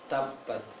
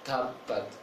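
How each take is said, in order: The two takes are said the same way.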